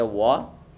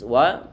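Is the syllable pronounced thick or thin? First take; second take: thick; thin. First: The syllable is pronounced thick and heavy. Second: The syllable is pronounced thin and light. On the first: The speaker calls it wrong. "tidak boleh kita baca wa" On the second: The speaker calls it right. "kita baca tipis wa"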